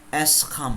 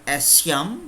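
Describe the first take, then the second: First: The consonant after the first vowel is sk. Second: The consonant after the first vowel is sh. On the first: The speaker calls it right. "tapi escham" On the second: The speaker calls it wrong. "bukan esyam"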